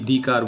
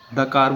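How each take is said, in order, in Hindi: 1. 'The' में लंबी 'thee' ध्वनि होती है। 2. 'The' में छोटी 'thuh' ध्वनि होती है।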